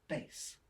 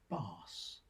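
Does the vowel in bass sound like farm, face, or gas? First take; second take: face; farm. First: The vowel sounds like the one in face. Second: The vowel sounds like the one in farm. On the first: "The third with face" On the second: "The first shares a sound with farm"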